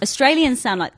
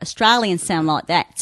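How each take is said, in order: First: Said in the usual way. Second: Rounded mock Australian vowels; awful Australian accent. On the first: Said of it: "okay, I'm gonna do my awful Australian accent now". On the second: Shown as a demonstration. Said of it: "I'm gonna do my awful Australian accent now".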